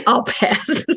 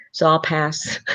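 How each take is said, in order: First: Laughing through the words, higher pitch; laughing repeat. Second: Said in the usual way. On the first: Real, not acted. Laughs repeating her own refusal.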